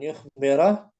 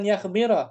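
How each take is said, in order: First: The first syllable has a 'u' vowel. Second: The first syllable has an 'a' vowel. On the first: The speaker calls it right. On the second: The speaker calls it wrong.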